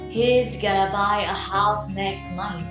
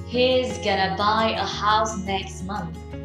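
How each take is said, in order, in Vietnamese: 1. Các từ được nói rút gọn và nối liền nhau nhanh. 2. Các từ được nói rút gọn và nối liền nhau nhanh.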